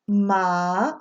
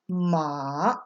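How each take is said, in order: First: It is said with the second tone. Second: It is said with the third tone. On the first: It means hemp. "when you go down the tone list" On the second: It means horse. "when you go down the tone list"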